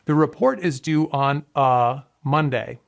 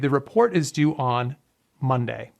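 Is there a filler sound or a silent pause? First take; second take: filler sound; silent pause. First: It is said with a filler sound. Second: It is said with a silent pause.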